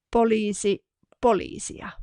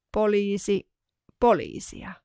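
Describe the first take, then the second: No difference in how they are said.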